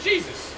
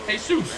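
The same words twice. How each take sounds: First: Said in the usual way. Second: Jesus said the Spanish way, hay-SOOS; Spanish pronunciation. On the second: Shown as a demonstration. Preacher explaining the Spanish name, saying Jesus as hay-SOOS. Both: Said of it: "that's Spanish for Jesus".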